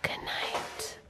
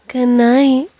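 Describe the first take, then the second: First: It is said softly and close. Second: It is said louder and more sensually.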